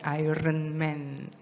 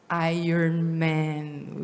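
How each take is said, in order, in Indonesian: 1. Iron diucapkan dengan R sebelum vokal. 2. Iron diucapkan dengan R setelah vokal. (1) "bukan Iron Man" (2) "mulai hari ini kita sebutnya Iron Man"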